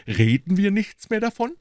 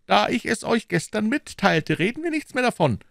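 First: Higher, rising mimicry of Aramis's words; mocking echo. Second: Higher, quick, dismissive; Aramis closing the topic. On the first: Porthos mocks Aramis's words, sarcastic rising echo. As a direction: throw his words back in mockery. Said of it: "sagt er heute". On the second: Aramis ends the talk with Porthos, quick and dismissive. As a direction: brush the subject off lightly. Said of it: "sprach Aramis". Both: A narrator's reading.

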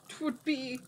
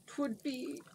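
First: Falling, still searching for the word; trailing hesitation. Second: Softer hesitant start; faltering. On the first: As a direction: give up on the word. Jin falters again. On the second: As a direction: lose the word mid-sentence. Jin falters. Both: A narrator's reading.

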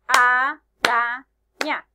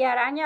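First: Araña as a - ra - ña, slow and loud; araña broken into three drawn-out syllables, first one loudest. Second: Said in the usual way. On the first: Shown as a demonstration. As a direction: clap out araña in three beats. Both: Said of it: "vamos a ver las sílabas".

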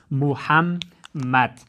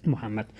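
First: محمد drawn out very slowly in separate syllables. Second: Said in the usual way. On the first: Shown as a demonstration. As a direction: sound out محمد slowly, pausing between syllables. (محمد را بسیار آهسته و هجا به هجا)

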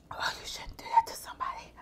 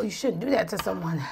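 First: Breathless whispered gasp. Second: Said in the usual way. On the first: Real, not acted. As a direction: whisper it, winded by the spice. Gasping through spicy noodles.

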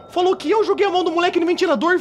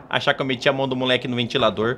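First: Said in the usual way. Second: Lower, fast, indignant mother repeating "meti a mão do moleque no ventilador"; mãe indignada. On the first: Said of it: "Ô, louco!". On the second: Acted. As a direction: rattle off "achar que eu meti a mão do moleque no ventilador" as the offended mother, low and quick. Mãe indignada repete acusação. (mãe ofendida diz rápido e grave "achar que eu meti a mão do moleque no ventilador")

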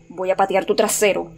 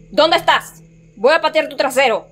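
First: Said in the usual way. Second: High-pitched challenge; raised voice, daring a hidden foe to show; shouted threat. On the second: Real, not acted. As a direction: call out the threat, worked up. Repeats threat, calling out.

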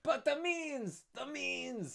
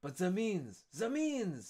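First: Very high, slow, drawn-out cry; Danglars voice. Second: High, eager demand, quicker; Fernand voice. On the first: Danglars misread for Fernand, very high slow cry. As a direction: stretch each word out in a high squeal. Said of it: "that's Danglars". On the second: Fernand demanding how to ruin Dantes, eager high cry. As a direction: press for the answer eagerly. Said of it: "this is Fernand speaking". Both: Acted.

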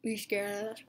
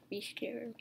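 First: Said in the usual way. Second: Spooky breathy whisper. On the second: Shown as a demonstration. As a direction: hush it like a threat. Whispered reread of the message.

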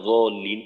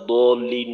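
First: জলিন with a z-like za; za sound. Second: দলিন with a heavy dad, "d"-like; dad sound. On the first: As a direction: say জলিন with z replacing the d-like dad. (জলিন-এ জয়ের মতো উচ্চারণ) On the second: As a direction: say দলিন with a drawn-out d-like ض. (দলিন-এ দদের উচ্চারণ) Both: Shown as a demonstration. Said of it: "এটা নিয়ে বিতর্ক হয় যে দদ".

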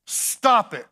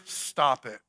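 First: Preacher hollering stop it; shouted command. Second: Said in the usual way. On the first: Acted. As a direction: stop it, much louder, punched and final.

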